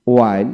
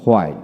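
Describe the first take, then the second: First: ওয়াইল with a plain w onset; British pronunciation. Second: হোয়াইল with h onset, falling; American pronunciation. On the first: Teacher drilling wh words, British pronunciation. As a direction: say ওয়াইল without any h. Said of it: "British উচ্চারণে". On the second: Teacher drilling wh words, American pronunciation. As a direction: say হোয়াইল leading with h. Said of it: "এবং আমেরিকানে হ". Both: Shown as a demonstration.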